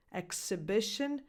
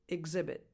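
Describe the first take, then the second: First: Exhibition said ek-suh-BI-shun with ks. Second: Exhibit said ig-ZI-bit with a voiced gz. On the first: Coach contrasts Exhibition with ks. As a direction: hit the ks in Exhibition. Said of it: "Exhibition from the previous list has a X sound". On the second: Coach contrasts exhibit with gz. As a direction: buzz the gz in exhibit. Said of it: "exhibit has a X sound". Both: Shown as a demonstration.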